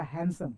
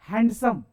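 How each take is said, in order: First: हैंडसम softer, as "hansum" without d; silent d. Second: हैंडसम with the d sounded, "hand-sum"; spelling pronunciation. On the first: Teacher saying it as read, हैंडसम with silent d. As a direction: drop the d in हैंडसम. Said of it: "पढ़ते क्या?". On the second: Teacher saying it as written, हैंडसम with a clear d. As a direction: pronounce every letter of हैंडसम, d included. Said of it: "हम लिखते क्या है". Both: Shown as a demonstration.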